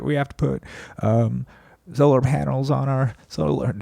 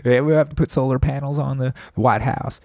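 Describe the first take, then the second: First: A genteel Southern president voice that slides toward Clinton; mock folksy Southern politician; Carter impression. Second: A lightly put-on Southern voice pitched higher, retried; mock genteel Southern politician; Carter impression. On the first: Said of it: "is that Clinton?". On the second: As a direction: fix the accent back to a genteel Southern president. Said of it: "I think I'm changing".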